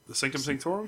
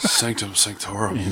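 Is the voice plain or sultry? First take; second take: plain; sultry. First: It is said in a plain, questioning voice. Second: It is said in a sultry, seductive voice.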